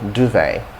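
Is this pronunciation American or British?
American. The word begins with a plain 'd' sound. "duvet for American English"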